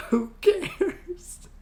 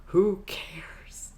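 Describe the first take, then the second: First: Who cares squeaked very high; Who cares squeaked up high, exasperated. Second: Whispered who cares. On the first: Squeaking to viewers that nobody minds, very high. Exasperated repeat, much higher. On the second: Whispering to viewers about pointless edits, dismissive. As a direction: breathe it out, dismissive. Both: Real, not acted.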